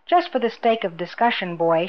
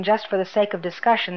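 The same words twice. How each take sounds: First: Mildly mocking echo of his words; lightly imitating mockery; mimicking. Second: Said in the usual way. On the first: A narrator's reading. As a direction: throw his phrase back at him, lightly mimicked. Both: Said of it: "she mimicked him".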